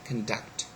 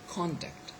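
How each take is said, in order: First: The stress is on the second syllable. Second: The stress is on the first syllable. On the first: It is used as a verb. "is a verb we say conduct" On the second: It is used as a noun. "is a noun. We we say contact"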